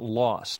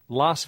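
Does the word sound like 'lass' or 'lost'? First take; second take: lost; lass. First: The word sounds like lost, with a back vowel. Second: The word sounds like lass, with a front vowel. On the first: The speaker calls it wrong. "not lost" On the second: The speaker calls it right. "it's more like Las Vegas"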